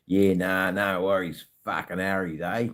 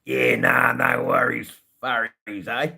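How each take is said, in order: First: Lightly played-up Australian slang; Australian slang verse. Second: Loud, high, hammed-up Australian accent; over-the-top Aussie declamation; Australian slang stanza. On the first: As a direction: recite it in everyday broad Australian. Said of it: "Australian verse". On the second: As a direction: belt it out in exaggerated broad Australian. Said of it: "That's a stanza".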